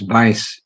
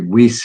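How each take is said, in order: First: The name is said the European way. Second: The name is said the American way. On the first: "I guess in Europe it's" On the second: "maybe Weiss here"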